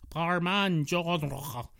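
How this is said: Genre is pronounced in a French-sounding way.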